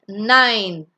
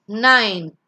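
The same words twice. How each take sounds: No difference in how they are said.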